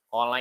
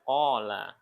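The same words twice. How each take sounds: First: The 'la' vowel is held short. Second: The 'la' vowel is held long. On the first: One person said it. "Kalau lanya dibacanya pendek, berarti cuma satu orang" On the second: Two people said it. "Makanya lanya panjang"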